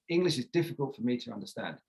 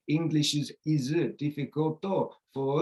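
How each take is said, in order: First: Stress-timed, with contractions and lengthened stressed words in "English is difficult for me to understand"; natural English rhythm. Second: Even syllable-timed delivery; Japanese-style timing. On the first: Teacher modelling the target rhythm for students. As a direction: reduce the weak syllables and lengthen the stressed words. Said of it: "I want to be speaking more like this".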